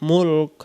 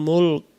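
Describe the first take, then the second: The two takes are said the same way.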